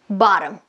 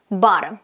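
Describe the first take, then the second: The two takes are said the same way.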